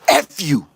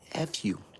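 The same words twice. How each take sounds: First: It is said forcefully, with lots of energy. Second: It is said lightly, with low energy. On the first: It is aggressive and meant to offend. "Where is all that energy coming from?" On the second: It is harmless and not meant to offend. "I won't take it the wrong way"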